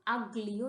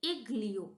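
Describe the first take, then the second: First: The word begins with an 'a' vowel sound. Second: The word begins with an 'e' vowel sound. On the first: The speaker calls it wrong. "इसको हम अग्लियो नहीं pronounce करेंगे" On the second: The speaker calls it right. "इसको हम ए से पढ़ेंगे"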